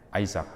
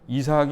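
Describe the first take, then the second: First: It starts with an 'ai' sound: Ai-sak. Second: It starts with an 'i' sound: I-sak.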